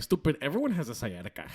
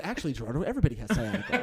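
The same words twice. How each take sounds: First: Imitated mom, softer, with a Spanish accent; mom's Spanish accent. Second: Put-on lower, matter-of-fact version of the mom, no accent; mom without accent. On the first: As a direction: lightly mimic a dismissive Spanish-accented mother. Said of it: "That's exactly how she said it". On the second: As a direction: correct him as an unaccented mother, amused. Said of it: "she probably said".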